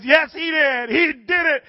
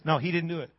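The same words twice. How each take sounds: First: High, loud jubilant insistence; imitated overjoyed woman; excited insistence. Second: Soft, level-headed contradiction; imitated skeptical neighbor; calm denial. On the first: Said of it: "She says". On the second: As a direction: deny it quietly, unmoved. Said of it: "He goes".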